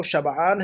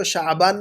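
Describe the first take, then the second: First: شبعان as "shab-'aan"; correct pronunciation. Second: شعبان as "sha'-baan"; mispronunciation. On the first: Teacher reminds students of the word, correct pronunciation. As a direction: put the 'ayn after the b in شبعان. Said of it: "ہے یہ لفظ". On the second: Teacher warns students not to confuse it, mispronunciation. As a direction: break شعبان after "sha", before the b. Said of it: "شعبان نہیں سمجھیے گا". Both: Shown as a demonstration.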